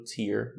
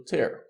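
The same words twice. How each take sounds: First: "tear" rhyming with "ear"; tear as lágrima. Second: "tear" rhyming with "air"; tear as rasgar. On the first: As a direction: say "tear" with an "ee" vowel, like "teer". ("tear" com som de i, como lágrima) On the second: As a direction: say "tear" with an open "eh" vowel. ("tear" com som de é, como rasgar) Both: Shown as a demonstration. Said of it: "vai ter pronúncias diferentes".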